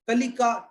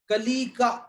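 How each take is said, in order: First: The vowel after 'l' is kept short. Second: The vowel after 'l' is drawn out long. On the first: The speaker calls it right. "ऐसा करते तो एकदम सही हो जाता" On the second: The speaker calls it wrong. "आपने उच्चारण उसका बड़ी का कर दिया"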